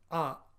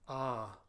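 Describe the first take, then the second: First: The vowel is short. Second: The vowel is long. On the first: "the letter A is short" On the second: "with a diacritical mark above it is pronounced A"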